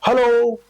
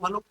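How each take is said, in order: First: It is shouted loudly. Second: It is said softly, like a fading echo.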